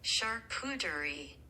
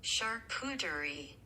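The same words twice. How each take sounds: No difference in how they are said.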